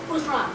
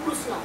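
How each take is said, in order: First: It is said with a Gujarati accent. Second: It is said with an Odia accent. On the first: "আবার যদি গুজরাটে যাওয়া হয়" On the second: "Odia ভাষা যারা কথা বলেন"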